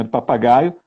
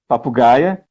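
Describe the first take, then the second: First: "Do papagaio" in plain Brazilian Portuguese, ending in -aio; Portuguese word. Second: "papagaia" said Russian-style as pa-pu-GAI-a, ending in -a; Russian-style form. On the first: Teacher gives the Portuguese form before the Russian one. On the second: Teacher contrasts the Russian form with the Portuguese word. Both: Shown as a demonstration.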